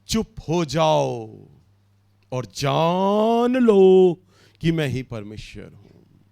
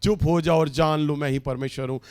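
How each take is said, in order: First: The verse read slowly, with long pauses; चुप हो जाओ spoken slowly and solemnly, with pauses between phrases. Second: Rattled off fast, as if it meant little; चुप हो जाओ read quickly and offhand, no weight; quick casual reading. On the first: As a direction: weigh each word of the scripture. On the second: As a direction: toss the verse off lightly. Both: Shown as a demonstration. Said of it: "ओ, प्रभु इस बात को यूं ही शायद बोल रहे हैं".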